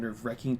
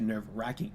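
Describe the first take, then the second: First: The vowel in wracking is not an A. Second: The vowel in wracking is an A sound. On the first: "it became from nerve wracking" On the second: "they love the A a lot"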